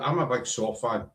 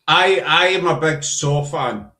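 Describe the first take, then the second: First: It is said fast. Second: It is said slowly.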